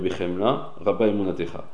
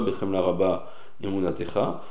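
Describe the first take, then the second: First: The pause follows bechemla; rabba imunatecha runs together. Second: A pause splits rabba from imunatecha. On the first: The speaker calls it right. "Il faut marquer une pause après le mot bechemla" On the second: The speaker calls it wrong. "C'est pas"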